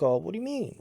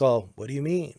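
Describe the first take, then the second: First: Higher, questioning reaction to an accusation; truly reacting. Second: Unreactive line delivery, in an even pitch; not truly reacting. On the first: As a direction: answer as if you really heard it. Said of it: "if you really truly listen to somebody". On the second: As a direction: say it as if you weren't listening. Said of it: "not reacting to what's truly being said". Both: Shown as a demonstration.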